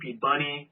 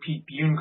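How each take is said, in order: First: The surname is said as two syllables, Bunny. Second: The surname is said as one syllable, Bune. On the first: The speaker calls it wrong. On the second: The speaker calls it right. "don't say Pete Bune correctly"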